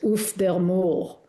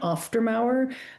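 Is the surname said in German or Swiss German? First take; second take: Swiss German; German. First: It is said with a Swiss German pronunciation. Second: It is said with a standard German pronunciation. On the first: "in fact, Swiss German" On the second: "an international German pronunciation"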